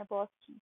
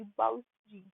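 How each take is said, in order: First: बॉस जी, like English "boss" plus ji; everyday boss-ji. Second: बाउस जी, the letters BAUS read as one word; acronym as word. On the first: Teacher likens acronym to Indian address, बॉस said like "boss". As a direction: say बॉस with a long open "aw". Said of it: "हम बोलते हैं ना बॉस जी". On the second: Teacher turns the acronym into a word, बाउस with "ow". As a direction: say बाउस with an "ow" vowel. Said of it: "थोड़ा सा बॉस जी जैसा मैंने बनाया". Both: Shown as a demonstration.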